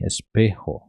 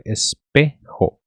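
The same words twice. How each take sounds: First: "espejo" begun with an I sound, as ispejo; Portuguese-style first vowel. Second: "espejo" slowly, with a full E at the start; correct first vowel. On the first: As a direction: say "espejo" as a Portuguese speaker would, starting on I. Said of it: "Falamos I". ("espejo" começando com som de I) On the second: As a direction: break "espejo" into es-pe-jo, clear opening E. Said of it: "Tem que ser". ("espejo" devagar, com E inicial claro) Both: Shown as a demonstration.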